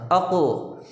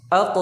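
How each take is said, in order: First: अक with the final k bounced and released; अक with a clear, bouncing k at the end; with qalqala. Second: अक with the final k closed flat and unreleased; अक ending on a dead k; without qalqala. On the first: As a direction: let the k of अक echo out. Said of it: "कलकला करके पढ़ना है". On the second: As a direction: stop the k of अक with no bounce. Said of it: "अक ऐसे नहीं आपने पढ़ना". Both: Shown as a demonstration.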